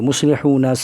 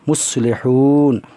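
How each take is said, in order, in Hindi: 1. शब्द के आख़िर में एक छोटा स्वर है। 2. शब्द व्यंजन पर ख़त्म होता है, कोई स्वर नहीं।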